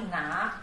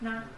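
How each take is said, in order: First: The syllable has a dipping third tone. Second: The syllable has a light neutral tone. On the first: The speaker calls it wrong. "但是不是哪" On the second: The speaker calls it right. "是那轻声"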